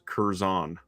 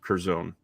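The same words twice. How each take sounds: First: The second syllable rhymes with 'gone'. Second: The second syllable does not rhyme with 'gone'. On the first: The speaker calls it right. "it's Kur like her and Zon like gone" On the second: The speaker calls it wrong. "instead of"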